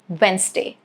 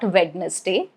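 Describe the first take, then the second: First: The D sound is silent. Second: The D sound is pronounced. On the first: The speaker calls it right. "it is" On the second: The speaker calls it wrong. "it is not"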